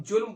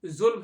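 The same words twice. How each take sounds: First: जुल्म said julm with a plain j; old Hindi julm. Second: जुल्म with a buzzing z sound, not j; correct Persian zulm. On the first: Teacher shows students how Hindi speakers used to say it. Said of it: "जैसे कि जुल्म है". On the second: Teacher shows students the correct z in जुल्म. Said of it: "तो हम जुल्म बोलते थे". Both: Shown as a demonstration.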